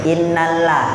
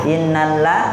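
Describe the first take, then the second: No difference in how they are said.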